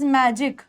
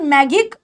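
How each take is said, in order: First: The g is soft, like a j. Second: The g is hard, like in go. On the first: The speaker calls it right. "It is मैजिक" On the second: The speaker calls it wrong. "It is not मैगिक"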